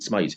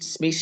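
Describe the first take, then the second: First: The name is said like Smythe. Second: The name is said like Smith. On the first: This is how the name's owner says it. "but he pronounced it Smythe" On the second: This is how people locally would say it. "we would pronounce it Smith here"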